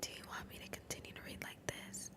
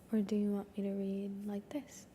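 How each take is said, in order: First: Fully voiceless, hushed ASMR question; whisper. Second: Said in the usual way. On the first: Shown as a demonstration. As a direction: ask it all in a soft whisper. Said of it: "One person said whisper". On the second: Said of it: "another person said quiet voice".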